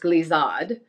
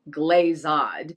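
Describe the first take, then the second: First: It is pronounced with a French sound. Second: It is pronounced with an anglicized American sound. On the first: The speaker calls it right. "It's glazade" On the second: The speaker calls it wrong. "it is definitely not glazade"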